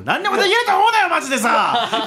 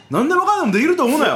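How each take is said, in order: First: Much higher and louder fast warning; mock shout. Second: Fast, high, laughing warning; a playful jab at the audience; mock scolding. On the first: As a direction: bellow it at the audience. Repeated catchphrase, now ramped up.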